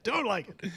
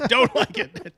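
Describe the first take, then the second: First: Said in the usual way. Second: Louder, higher take through a laugh; mock disapproval while laughing; laughing mock echo. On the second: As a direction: laugh out the dismissal. Echoing cohost mock.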